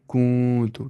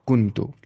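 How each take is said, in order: First: कूं तो with a long nasal vowel; nasal hidden nun. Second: कुन तो with a short clear nun. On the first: Teacher shows the right way, nun hidden in the nose. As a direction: draw out कूं through the nose. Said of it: "नाक में आवाज़ छुपानी है". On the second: Teacher shows the wrong way with a clear nun. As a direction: say कुन crisply before तो. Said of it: "लेकिन नहीं". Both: Shown as a demonstration.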